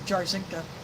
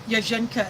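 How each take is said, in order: First: The surname is said with English sounds. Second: The surname is said with Polish sounds. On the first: This is how others commonly say it. The speaker calls it wrong. "instead of" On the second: This is the correct original pronunciation. The speaker calls it right. "Just like I say Yajenka"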